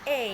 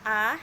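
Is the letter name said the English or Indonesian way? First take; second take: English; Indonesian. First: The letter is named the English way. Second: The letter is named the Indonesian way. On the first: "huruf A dalam bahasa Inggris disebut A" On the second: "A dalam huruf dalam bahasa Indonesia"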